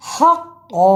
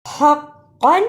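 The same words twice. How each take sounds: First: हक़्क़ा ending in a long open aa, no n; pausal form. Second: हक़्क़न ending in a short "an" with audible n; continuing form. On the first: Teacher showing how to stop, हक़्क़ा with long aa. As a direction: hold the last vowel of हक़्क़ा. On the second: Teacher showing the unpaused form, हक़्क़न with final n. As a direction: close हक़्क़न on the n, vowel short. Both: Shown as a demonstration. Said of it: "रुकने की सूरत में".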